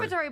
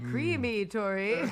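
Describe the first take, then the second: First: The first syllable is short and unstressed. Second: The first syllable 'cream' is long and heavily stressed. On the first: "It's like it's" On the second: "you were like creamy-tory"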